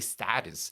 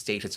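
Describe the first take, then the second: First: It is said with an American pronunciation. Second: It is said with a British pronunciation.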